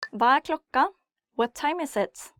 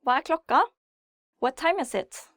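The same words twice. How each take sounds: The two takes are said the same way.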